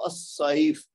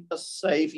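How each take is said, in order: First: السیف۔ with a thick, full-mouthed saad S; heavy S (saad). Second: السیف، with a light, thin seen S. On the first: Teacher shows students the saad sound, heavy S in السیف۔. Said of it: "صاد کے ساتھ بولنا ہے". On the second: Teacher shows students the seen sound, light S in السیف،. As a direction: say السیف، with a plain, unthickened S. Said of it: "یہ سین ہے". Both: Shown as a demonstration.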